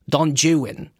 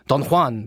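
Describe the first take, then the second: First: The name has an exaggerated English pronunciation. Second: The name has a Spanish pronunciation.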